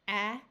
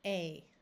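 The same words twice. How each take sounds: First: The vowel is the short sound. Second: The vowel is the long sound.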